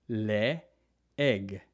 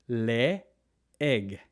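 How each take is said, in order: Both takes have the same delivery.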